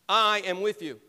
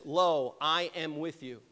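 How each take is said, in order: First: "I" punched loud at the start of "I am with you"; stress on I. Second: Said in the usual way. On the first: Shown as a demonstration. Pastor shows the congregation Jesus' stressed "I" in "I am with you". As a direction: lean hard on "I", then let "am with you" fall. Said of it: "the "I" is really emphasized". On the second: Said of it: "is really emphasized".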